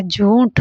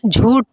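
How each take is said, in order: First: झूठ with aspirated final "th"; correct aspiration. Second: झूठ drawn out with a hard "T"; wrong final sound. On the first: Teacher saying what it should be, correct aspiration. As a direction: say झूठ as "jhooth". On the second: Teacher reading what is wrongly written, wrong final sound. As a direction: say झूठ as "jhoot", no final aspiration. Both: Shown as a demonstration. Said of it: "झूठ होना चाहिए".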